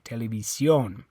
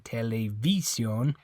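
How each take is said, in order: First: The stress is on the last syllable. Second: The stress is on the third syllable. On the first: The speaker calls it right. "It's on the O" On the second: The speaker calls it wrong. "It's not this I. You don't say televisión"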